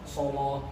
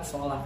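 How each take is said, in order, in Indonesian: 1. Bunyi L itu berat dan tebal. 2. Bunyi L itu ringan dan tipis. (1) "lamnya tebal, tafkhim" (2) "Kalau kita kan sholah"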